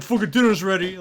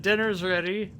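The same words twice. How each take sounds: First: Loud, higher-pitched mock holler; imitated rude yell. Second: Higher-pitched, unshouted announcement; retold text message. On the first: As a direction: bellow it as if banging on the door. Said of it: "walk up and bang on the door". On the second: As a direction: announce it lightly, as if texting. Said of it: "like, in text".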